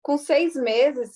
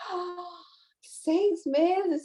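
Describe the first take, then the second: First: Said in the usual way. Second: A light retold gasp of disbelief, "seis meses?" rising in wonder; mock astonishment at the baby's age; astonished. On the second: (espanto leve, incrédulo)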